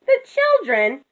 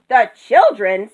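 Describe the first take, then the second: First: High, gently imploring; high-pitched, coaxing appeal; pleading. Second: Rooster's dismissive question; incredulous, grumpy echo; scornful echo. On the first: Moo pleads with the rooster. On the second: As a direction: throw it back as an unimpressed rooster. Rooster scornfully echoes Moo. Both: A narrator's reading.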